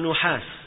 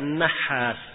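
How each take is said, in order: First: The first vowel sounds like 'u'. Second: The first vowel sounds like 'a'. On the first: The speaker calls it wrong. "Bukan Ibnu Nuhas, salah" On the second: The speaker calls it right. "Tapi dibaca Nahas"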